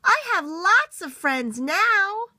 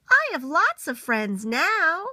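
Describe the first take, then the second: First: Higher, louder and slow, calling out; little beaver shouting happily across the pond; very loudly. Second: Higher, slow and happy; little beaver sharing happy news. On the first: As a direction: call it out across the pond with joy. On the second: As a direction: announce it with joy. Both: Acted. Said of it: "said it again very loudly".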